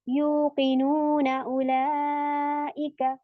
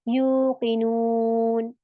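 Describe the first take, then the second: First: The word ends with a vowel into the next. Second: The word ends abruptly with a silent final n. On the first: The recitation continues without pausing at the verse end. "फिर मैं इसको जबर के साथ पढ़ जाऊंगी" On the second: The recitation pauses at the end of the verse. "तो मैं इसको सुकून बना दूंगी।"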